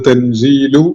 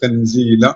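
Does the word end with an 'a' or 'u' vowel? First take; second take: u; a. First: The word ends with a 'u' vowel. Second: The word ends with an 'a' vowel. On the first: The speaker calls it wrong. "അത് തൻസീലു എന്ന് വായിക്കരുത്" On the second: The speaker calls it right. "അവിടെ തൻസീല എന്ന് തന്നെയാണുള്ളത്"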